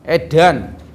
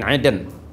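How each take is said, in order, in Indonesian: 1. Vokal kedua berbunyi 'a'. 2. Vokal kedua berbunyi 'e'. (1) "Betulkan itu makhrajnya" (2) "bukan eden"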